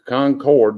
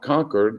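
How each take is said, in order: First: It is said the local North Carolina way. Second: It is said the Massachusetts way.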